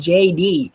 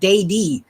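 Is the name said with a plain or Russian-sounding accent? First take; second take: plain; Russian. First: The letter J is said the ordinary way. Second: The J sounds like 'day' in a Russian accent. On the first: "He doesn't call it J D" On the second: "He had a Russian accent. He calls it Day D"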